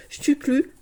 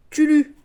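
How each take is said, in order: First: Stuclu said with a k sound, stu-KLU; Stuclu, the habitual wrong name; mispronounced name. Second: Stulu said plainly, stu-LU with no k; corrected name. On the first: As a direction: say Stuclu, slipping a k into the middle. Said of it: "parce que je dis toujours Stuclu". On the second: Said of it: "mais c'est Stulu". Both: Shown as a demonstration.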